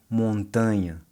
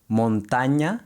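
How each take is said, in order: First: Montanha with a light Portuguese nh. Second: Montaña with a Spanish ñ, tongue pressed hard to the roof of the mouth. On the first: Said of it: "versus montanha in Portuguese". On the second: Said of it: "Montaña in Spanish". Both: Shown as a demonstration.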